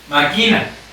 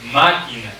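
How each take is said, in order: First: The stress is on the second syllable. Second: The stress is on the first syllable. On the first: The speaker calls it wrong. "¿Qué tal en la sílaba aquí?" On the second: The speaker calls it right. "¿qué tal si yo le pongo en la sílaba ma?"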